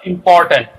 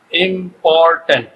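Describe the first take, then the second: First: Said in the usual way. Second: ইম্পর্ট্যান্ট said slowly as im, por, tant; slow syllable-by-syllable ইম্পর্ট্যান্ট for students; broken into syllables. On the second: Shown as a demonstration. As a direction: split ইম্পর্ট্যান্ট into three drawn-out syllables. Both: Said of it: "syllable বেশি আছে".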